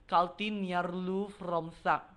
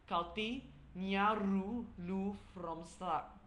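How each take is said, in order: First: The sentence is spoken quickly. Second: The sentence is spoken slowly. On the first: "if I say it quickly" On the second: "which is slow"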